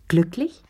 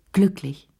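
First: Glücklich? with a rising question tune. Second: Glücklich. with a falling, settled tune; affirming. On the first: Madame Pelou probing Lea about her happiness, rising question. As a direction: ask Glücklich? lifting up at the end. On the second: Lea confirming to Madame Pelou she is happy, falling statement. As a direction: state Glücklich. firmly, dropping at the end. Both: A narrator's reading.

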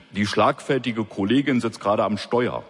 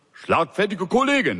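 First: Said in the usual way. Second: Mocking echo. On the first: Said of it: "Schlagfertige Kollegin, nicht schlecht". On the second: A narrator's reading. Boss mockingly echoing the officer's phrase. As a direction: boss repeats "Schlagfertige Kollegin" higher, teasing. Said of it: "nicht schlecht".

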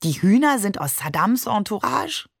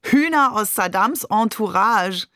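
First: Puzzled, with a rising end; mildly bewildered, lifting at the end; baffled question. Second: Exclaimed with a falling end; lively, emphatic exclamation; amused call. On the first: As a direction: ask it in innocent confusion. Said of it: "Ich verstand gar nichts mehr". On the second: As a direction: crow it out to the whole room. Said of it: "rief Shakir". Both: A narrator's reading.

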